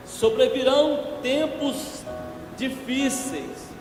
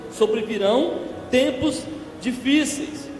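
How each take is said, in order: Both takes have the same delivery.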